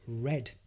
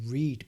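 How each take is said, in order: First: The vowel sounds like 'red'. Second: The vowel sounds like 'reed'. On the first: It is the past tense. "it can be pronounced as read, so the past simple of read" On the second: It is the present tense. "You read books"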